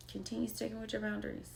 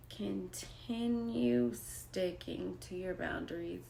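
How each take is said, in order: First: Rushed. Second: Slow and deliberate. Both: Real, not acted.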